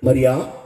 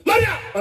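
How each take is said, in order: First: Tender call. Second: Sharp call. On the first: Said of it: "ఎలా పిలుచుంటాడు". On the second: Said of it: "ప్రేమతో పిలిచాడా". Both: Shown as a demonstration.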